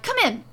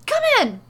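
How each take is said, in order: First: High, loud call; eager, raised-voice invitation; excited urging. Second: Very high, loud, insistent call; frantic, high-pitched invitation; urgent shouting. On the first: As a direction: urge them in excitedly. Excited host urging visitors inside. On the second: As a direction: shout them inside. Excited host repeats more urgently. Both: A narrator's reading.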